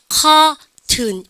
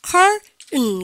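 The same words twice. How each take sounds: First: Curtain slowly as "kaa-tun", R dropped; drawn-out British curtain without R; British pronunciation. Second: Curtain slowly, "karr-'n" with swallowed T; drawn-out American curtain, nasal ending; American pronunciation. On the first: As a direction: stretch the "aa" in curtain, sound the T. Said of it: "요 발음을 했게 안 했게". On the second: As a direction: hold the R, then release curtain through the nose. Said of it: "미국식으로". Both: Shown as a demonstration.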